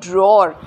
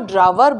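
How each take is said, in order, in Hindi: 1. इसे एक अक्षर में बोला जाता है, dror। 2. इसे दो अक्षरों में बोला जाता है, draw-er। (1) "ये है ड्रॉर" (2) "फिर इसको ड्रावर बोलते हैं"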